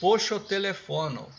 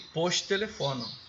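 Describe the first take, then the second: First: It is said with a linking o vowel. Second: It is said without a linking o vowel. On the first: The speaker calls it wrong. "Aqui poderia ser poxotelefono" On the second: The speaker calls it right. "Eu preferi post-telefono. Veja como é que a pronúncia flui melhor"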